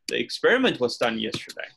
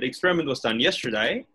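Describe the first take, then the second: First: The stress falls on the word experiment. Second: The stress falls at the end, on yesterday.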